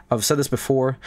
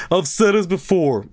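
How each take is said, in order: First: Said in the usual way. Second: I've said this before, pitched up high; insistent, high-pitched reiteration; emphatic repeat. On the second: Real, not acted. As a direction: hammer every word of I've said this before, higher. Repeats same words with more force.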